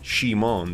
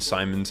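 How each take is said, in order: First: The name is pronounced the Japanese way. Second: The name is pronounced the English way. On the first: "That's how they would say Simon" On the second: "how you say it in English"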